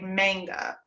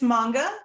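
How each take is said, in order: First: The first vowel is hit harder, like in mango. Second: The first vowel is said lightly, not hit hard. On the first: This is how it feels natural to English speakers. "we want to hit that A a little bit harder" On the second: This is the way it is said in Japanese. "that's how they say it in Japanese"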